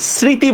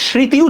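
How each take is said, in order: First: The word begins with an 's' sound. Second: The word begins with a 'sh' sound. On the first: "এস এর মতো করে উচ্চারণ করতেছেন" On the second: "তাহলে কিন্তু তালব্য শ দিয়া লিখতেন"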